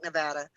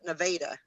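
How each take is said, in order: First: The name is pronounced like the state's name. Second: The name is pronounced the local town way. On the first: This is how the spelling suggests it is said. "It's spelled like Nevada" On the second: This is how the people there say the name. "but they call it Nevada"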